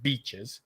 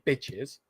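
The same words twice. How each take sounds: First: "beaches" with a long ee; long vowel in beaches. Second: "bitches" with a short i; short vowel in bitches. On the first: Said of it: "I said beaches". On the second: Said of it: "I didn't say bitches". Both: Shown as a demonstration.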